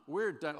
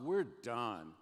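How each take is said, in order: First: Louder, punched repeat of "We're done."; emphatic repeat. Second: Said in the usual way. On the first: Real, not acted. Pastor warns students, repeating it louder for emphasis. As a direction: hammer the point home on "We're done.".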